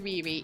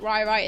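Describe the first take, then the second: First: Each syllable has the vowel of 'ree'. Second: Each syllable has the vowel of 'rye'. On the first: The speaker calls it right. "it's definitely Riri" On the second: The speaker calls it wrong. "it's not Rai Rai"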